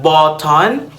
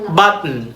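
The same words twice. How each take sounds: First: The word is said slowly and carefully. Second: The word is said quickly and casually. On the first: "when you read it, it's like button" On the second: "if you're going to read it in a fast way, in a quick way"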